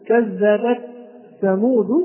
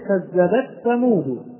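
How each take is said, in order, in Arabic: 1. صوت التاء محبوس وفيه نفس. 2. يُدغم صوت التاء في th الذي بعده. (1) "لا نهمس التاء ونمسك التاء" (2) "قد يتوقع البعض كما نسمعها من بعض القراء ... وهذا خطأ ويعتبر لحنا"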